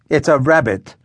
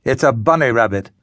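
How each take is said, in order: First: "It's a rabbit" spelled out patiently, "rabbit" pressed; as to slow children. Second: Put-on mild snarl from an old poet, "bunny rabbit" spat out. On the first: Ruth repeating herself to bewildered villagers, condescending. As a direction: talk down, each word of "It's a rabbit" laid out. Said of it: "as though to slow children". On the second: Elderly poet correcting the villagers with a mild snarl. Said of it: "snarled the elderly poet". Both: A narrator's reading.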